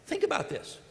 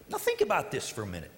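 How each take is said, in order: First: Whispered, high and breathy repeat; hushed repeat. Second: Said in the usual way. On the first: Shown as a demonstration. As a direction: lean in and whisper it to the congregation.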